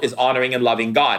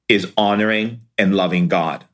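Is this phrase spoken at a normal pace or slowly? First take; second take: normal; slowly. First: The phrase is spoken at a normal pace. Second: The phrase is spoken more slowly.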